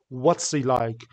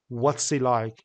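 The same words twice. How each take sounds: First: The h in 'he' is dropped and linked. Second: The h in 'he' is dropped and linked.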